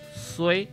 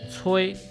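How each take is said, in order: First: The word begins with an s sound. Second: The word begins with a ch sound. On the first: "若伫台南关庙这个所在，就会念作衰" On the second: "这个吹"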